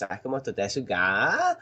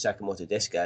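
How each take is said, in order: First: The voice rises at the end like a question. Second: The voice stays flat at the end.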